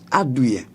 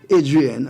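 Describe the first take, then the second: First: The name is said with a French pronunciation. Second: The name is said with an English pronunciation. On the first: The speaker calls it right. "I'm French. It's Adrien" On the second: The speaker calls it wrong. "people say Adrian and they anglicize it"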